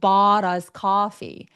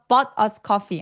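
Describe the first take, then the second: First: The vowel in bought is long and drawn out. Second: The vowel in bought is short and clipped. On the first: The speaker calls it right. "턱이 엄청 길어지고 소리가 굴곡지게 나야 돼요. 길어야 돼요" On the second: The speaker calls it wrong. "아니고"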